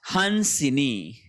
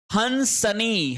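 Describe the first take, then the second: First: हंसिनी said very slowly, han-si-ni with a short इ; correct form, slow. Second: हंसनी said slowly, hans-ni with no इ; wrong form, slow. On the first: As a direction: draw out हंसिनी syllable by syllable. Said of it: "हंसिनी शब्द रहेगा". (हंसिनी बहुत धीरे, सही रूप) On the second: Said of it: "हंसनी नहीं होता है". (हंसनी धीरे, गलत रूप) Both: Shown as a demonstration.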